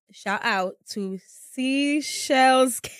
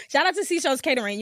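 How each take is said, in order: First: Slow, careful read of "Shout out to Seashells Catering"; slowly reading a sponsor shout-out off her list. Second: Said in the usual way. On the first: Shown as a demonstration. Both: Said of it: "I have a list, so I can't really say it right".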